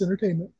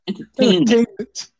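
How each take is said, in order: First: The final T is soft or dropped. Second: The final T is pronounced crisply. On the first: The speaker calls it wrong. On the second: The speaker calls it right.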